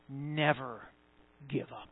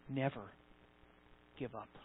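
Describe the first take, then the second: First: It is said with more force and fervor. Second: It is said in a calm, plain way.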